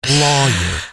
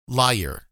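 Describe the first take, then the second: First: The word sounds like lawyer. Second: The word sounds like liar. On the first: The speaker calls it right. "and it's lawyer" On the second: The speaker calls it wrong. "I always said liar"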